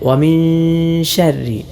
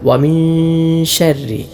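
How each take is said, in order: No difference in how they are said.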